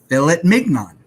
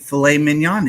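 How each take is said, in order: First: The words are pronounced exactly as spelled. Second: The words are not pronounced as spelled. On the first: "I'm calling it fillet mignon" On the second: "I'm not calling it filet mignon anymore"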